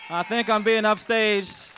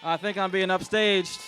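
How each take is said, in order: First: Hammed-up cry, higher, louder and slow; mock outrage. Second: Wry joke about being upstaged, a bit raised; tossed-off quip, slightly louder; joking aside. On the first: The owner repeats the joke to the cheering crowd in hammed-up indignation. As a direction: belt the joke out in playful indignation. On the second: Pretend. The owner jokes to the crowd as a celebrity arrives, with a wry aside.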